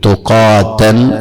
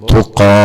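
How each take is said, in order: First: The word ends with a 'tan' sound. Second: The word ends with an 'ah' sound. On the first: The reading continues without stopping. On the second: The reader stops on this word.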